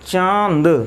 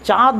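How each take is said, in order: First: The vowel is said through the nose. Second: The vowel is said without nasal sound. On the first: The speaker calls it right. "नाक से बोलते हैं" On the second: The speaker calls it wrong. "इसको हम चांद चांद नहीं पढ़ते"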